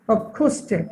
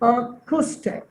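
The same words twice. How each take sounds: First: Said in the usual way. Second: "acoustic" slowed, first syllable held apart; teacher's slow syllable demo of "acoustic"; split into syllables. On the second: Shown as a demonstration. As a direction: say "acoustic" slowly, pausing after the opening "a". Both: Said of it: "এখানে কয়টা syllable রয়েছে".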